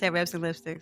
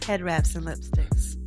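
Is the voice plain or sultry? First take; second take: plain; sultry. First: It is said in a plain voice. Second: It is said in a sultry, sexy voice.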